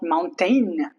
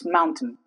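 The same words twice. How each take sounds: First: The last syllable has a full 'ain' vowel. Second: The last syllable has a reduced 'in' vowel. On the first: The speaker calls it wrong. "It's not mountain" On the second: The speaker calls it right. "it's mountain"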